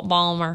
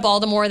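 First: "Balmer" squeezed into two syllables; local Maryland pronunciation. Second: Said in the usual way. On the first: Shown as a demonstration. Showing what locals say back home, "Balmer" with no middle syllable. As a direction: swallow the middle, saying "Balmer". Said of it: "they say Bal". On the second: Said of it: "Instead of Baltimore".

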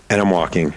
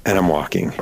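Both takes have the same delivery.

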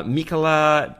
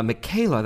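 First: Michaela said as MEE-kuh-luh; mispronounced name. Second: Michaela said as muh-KAY-luh; corrected pronunciation. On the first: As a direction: say "Michaela" with MEE first and no "kay". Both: Real, not acted. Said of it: "that makes more sense".

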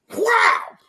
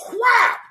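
First: High whap, a second crack; whip crack sound. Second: Sharp shouted whap like a whip crack; whip crack sound. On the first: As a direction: snap it out again like a whip. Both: Pretend.

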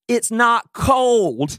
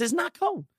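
First: High, very slow, deliberate reply; matter-of-fact retort. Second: Much higher but softer repeat; high soft retort. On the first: Husband answering his wife about the jacket, slow and deliberate. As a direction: stretch each word out a lot higher, patiently. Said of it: "this is what I said". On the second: Husband repeating his point to his wife, high and soft. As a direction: float it up high and quietly. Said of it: "I said". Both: Retold or imitated.

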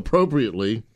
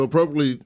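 First: "appropriately" redone with every syllable sounded; careful retry. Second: "appropriately" stumbled over, middle syllables swallowed; tongue-tripped word. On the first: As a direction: say "appropriately" carefully after a slip, each syllable in place. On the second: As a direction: fumble "appropriately", slurring past the second r. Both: Real, not acted. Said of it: "that was easy for me to say".

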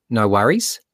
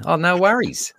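First: "No worries." rising up on "worries" like a question; question tone at the end. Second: A bright, much higher "Oh, no worries." falling off "worries"; casual Aussie. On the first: Teacher showing how Aussies say it, rising on worries. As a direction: ask "No worries." with the pitch lifting at the end. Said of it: "say it like it's a question". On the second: Teacher showing how to fit in, higher and breezy Australian. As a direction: toss it off lightly, pitched way up. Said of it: "there's a little question tone at the end". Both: Shown as a demonstration.

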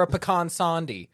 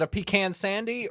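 First: "pecan sandy" as puh-KAHN SAHN-dee; puh-KAHN pronunciation. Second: "pecan sandy" as PEE-can SAN-dee, short flat a's; PEE-can pronunciation. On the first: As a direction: open ah in both words of "pecan sandy". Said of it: "what are you gonna call". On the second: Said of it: "I got shamed once for saying pecans". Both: Shown as a demonstration.

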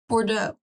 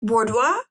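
First: Bordeaux as "Bor-doe", settled; Bordeaux said right. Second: Bordeaux said like "Por-dwah", asking; Bordeaux said wrong. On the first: Co-host correcting herself, saying Bordeaux as "Bor-doe". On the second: Co-host testing the name, saying Bordeaux as "Por-dwah". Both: Shown as a demonstration.

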